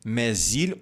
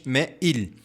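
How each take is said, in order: First: The s sound links into il. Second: No s sound links into il. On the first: "com a ligação" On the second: "ou simplesmente mais il"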